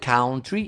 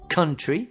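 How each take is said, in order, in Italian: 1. La prima vocale ha un suono o. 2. La prima vocale ha un suono uh. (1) "non è country" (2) "Country senza o"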